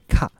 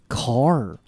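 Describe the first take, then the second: First: The final r is dropped without curling. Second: The final r is pronounced with curled tongue. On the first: The speaker calls it wrong. "而不是您所发的car" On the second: The speaker calls it right. "汽车呢car"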